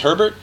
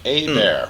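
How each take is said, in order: First: The first H is sounded, with an R. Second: The H is silent; E sounds like A. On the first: The speaker calls it wrong. "some people think it's Herbert" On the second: The speaker calls it right. "The H is silent, E's like an A"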